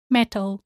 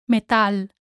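First: Metal as MET-ul; English pronunciation. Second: Metal as meh-TAL; Spanish pronunciation. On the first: Teacher contrasts with Spanish, English MET-ul for metal. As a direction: stress the first syllable of metal, English style. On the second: Teacher shows learners the Spanish word, meh-TAL for Metal. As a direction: stress the A in Metal, Spanish style. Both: Shown as a demonstration. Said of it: "same in English and in Spanish".

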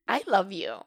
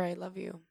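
First: Louder punch on "love", then falling; emphatic declaration. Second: Said in the usual way. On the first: Real, not acted. Host repeating her love to listeners, emphatic. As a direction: hit "love" hard and let it drop.

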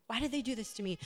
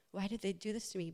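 First: "Why did they do this to me?" as a mild angry outburst, stress on "did"; indignant protest, punch "did"; mock anger. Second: "Why did they do this to me?" softer, deflated, stress on "they"; a quiet self-pitying question; victim whine. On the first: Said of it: "And you're just angry". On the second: Retold or imitated. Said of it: "a little bit more like".

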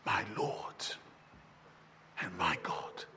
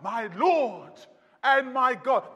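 First: A hushed, reverent whisper of awe; whispered confession of faith; awed whisper. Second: Said in the usual way. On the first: Acted. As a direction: breathe it, barely voiced and low. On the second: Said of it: "cried out".

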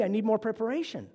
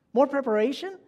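First: Said in the usual way. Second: Higher, rising disbelief; amazed question to a candle; incredulous echo. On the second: Acted. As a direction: repeat it back as if you can't believe it. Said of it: "I couldn't believe my ears".

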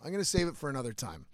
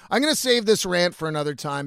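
First: Quick, low, softer aside; hushed, hurried decision; quiet aside. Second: Punched opening that settles as it goes; firm announcement. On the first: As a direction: say it fast and under your breath, as if deciding to yourself. Decides aloud to postpone the rant. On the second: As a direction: announce the decision out loud to your audience. Restates the decision to the audience. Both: Real, not acted.

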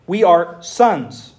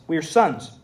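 First: Very slow, each word weighted; slow emphasis. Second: Said in the usual way. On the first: Shown as a demonstration. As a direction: spell out we are sons slowly. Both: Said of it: "repeats line for emphasis".

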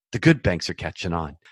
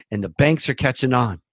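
First: Single out "good" with weight; correcting himself by stressing "good". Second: Said in the usual way. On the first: Real, not acted.

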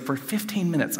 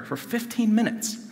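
First: Said in the usual way. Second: Fifteen lifted high for weight; "For fifteen minutes" repeated with emphasis; stress on fifteen. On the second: Shown as a demonstration. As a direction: lean on "fifteen" to show how long it felt. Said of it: "I'm praying that prayer".

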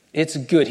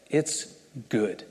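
First: Said in the usual way. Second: Soft, falling "It's good", the word "good" dropped much lower and quieter; hushed delight. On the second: Shown as a demonstration. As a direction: breathe "It's good" out softly, savouring it.

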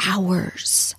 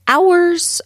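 First: Breathy whisper, no voice at all. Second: "Hours" burst out high and loud; emphatic exclaim. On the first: Host whispering to listeners how long she could talk. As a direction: drop to a secret whisper on "hours". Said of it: "drops to a whisper for emphasis". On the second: Host exclaiming to listeners how long she could talk. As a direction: throw "Hours" out with gusto. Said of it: "repeats the word loud and high". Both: Shown as a demonstration.

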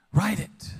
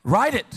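First: Said in the usual way. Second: Emphatic command. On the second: Shown as a demonstration. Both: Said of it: "repeat the point".

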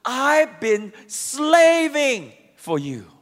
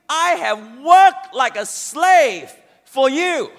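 First: Slow, bitter and louder; resentful. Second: Slow, loud and bitter; resentful. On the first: Son resenting his father, slow and louder. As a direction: spit out the complaint slowly. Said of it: "no love whatsoever in his tone". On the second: Son resenting his father, slow and loud. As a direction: lean hard on the complaint. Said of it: "dripping with resentment". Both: Acted.

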